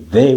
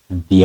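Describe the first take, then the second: First: 'The' is said with a short 'uh' vowel. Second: 'The' is said with a long 'ee' vowel. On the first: The speaker calls it wrong. "We don't say the" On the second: The speaker calls it right. "we say the answer"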